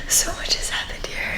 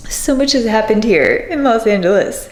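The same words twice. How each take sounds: First: Breathy near-silent whisper; whispered to herself. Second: Said in the usual way. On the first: Real, not acted. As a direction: barely breathe the words out. Overcome while leaving home.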